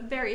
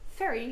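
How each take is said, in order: First: The word starts with a V sound. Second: The word starts with an F sound. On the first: The speaker calls it right. "instead of very" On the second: The speaker calls it wrong. "we sometimes say ferry instead of very"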